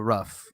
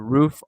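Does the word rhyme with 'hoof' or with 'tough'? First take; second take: tough; hoof. First: The vowel is short, like in 'cup'. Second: The vowel is long, like in 'food'. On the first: "we call it the rough" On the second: "it's the roof, R O O F"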